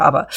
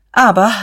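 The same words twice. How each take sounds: First: Said in the usual way. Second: Sharp, loud, higher Aber; strong repeat. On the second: A narrator's reading. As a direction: cut him off with a forceful Aber. (laut und nachdrücklich: „Aber“) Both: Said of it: "wiederholte Diederich stark".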